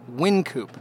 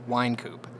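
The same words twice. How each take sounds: First: The first syllable rhymes with 'tin'. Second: The first syllable rhymes with 'line'. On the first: It names the brewery. "the brewery is Win" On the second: It names the street, after the man. "the street is wine"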